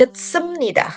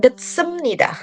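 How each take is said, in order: First: An 'm' sound comes before 'nida'. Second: An 'm' sound comes before 'nida'.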